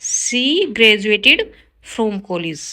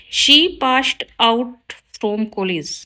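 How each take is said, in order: First: Slow, careful read of the corrected sentence; slow teacher dictation. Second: Slow, careful read of the wrong sentence; slow teacher dictation. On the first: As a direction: lay out each word clearly for the class. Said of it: "right होगा". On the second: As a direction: spell it out word by word for the class. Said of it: "wrong है sentence". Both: Shown as a demonstration.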